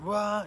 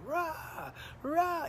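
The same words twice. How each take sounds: First: Single spaced retch. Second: Rapid retches. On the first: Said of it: "It wasn't, "Rah," you wait". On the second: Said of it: "six or seven in a row". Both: Retold or imitated.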